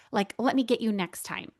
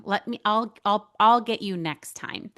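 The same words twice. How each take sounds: First: Said in the usual way. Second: Insistent deflecting. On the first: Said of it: "I'm like". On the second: Retold or imitated. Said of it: "I am the queen of saying".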